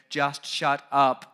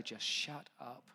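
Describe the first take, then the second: First: Angry outburst. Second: Muttered retelling. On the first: Acted. Job's angry outburst at his friends. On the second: Retold or imitated. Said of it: "I wanted to say".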